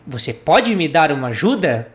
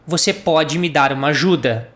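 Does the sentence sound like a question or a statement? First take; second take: question; statement. First: It is said with question intonation. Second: It is said with statement intonation. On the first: The speaker is asking for help. "when I ask a question" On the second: The listener is able to help. "If I wanted to say just an affirmative um, sentence saying you can help me"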